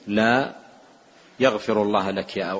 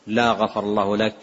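First: A clear pause follows la before the rest. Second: The words run on with no pause after la. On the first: It is a no followed by a prayer for forgiveness. The speaker calls it right. "بنطقها بهذه الطريقة واضح الفصل" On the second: It sounds like a curse that God not forgive. The speaker calls it wrong. "لم يأتي بها موصولة"

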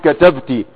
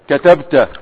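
First: The word ends with the vowel sound -ti. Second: The word ends with the vowel sound -ta. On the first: A female listener is the one who wrote. "لما يكون المخاطب مؤنثا تقول" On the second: A male listener is the one who wrote. "لما تريد ان تخاطب مذكرا فتقول"

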